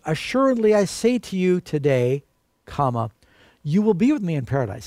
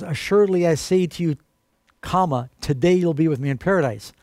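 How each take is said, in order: First: "Assuredly I say to you today," then a clear pause before "you will be with me in paradise"; corrected comma reading; comma after today. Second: Misplaced comma reading; comma after today. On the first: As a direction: stress "today" and break after it. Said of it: "the way it really reads is". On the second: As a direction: pause placed after "today,". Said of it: "If you read this, in the King James Version". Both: Shown as a demonstration.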